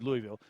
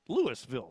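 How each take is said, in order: First: It is said the way Kentuckians say it. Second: It is said the way southern Illinoisans say it. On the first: "in Kentucky, it's Louisville" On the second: "Southern Illinois, it's Louisville"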